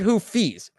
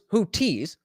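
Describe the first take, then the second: First: The middle consonant is an f sound. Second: The middle consonant is a t sound. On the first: Someone else said it this way. "he's saying it like it's F" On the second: The speaker thought it was said this way. "I thought it was who tees"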